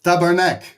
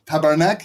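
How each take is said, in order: First: Tabarnak said as TAH-bar-nak with a falling end; Quebec French swear. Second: Tabarnak? with a questioning rise at the end; questioning try; asking about the pronunciation. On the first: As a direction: try out Tabarnak like a Quebec curse. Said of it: "Pardon my French. French Canadian". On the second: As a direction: check whether Tabarnak is said right. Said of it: "Is it Tabarnak?". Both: Shown as a demonstration.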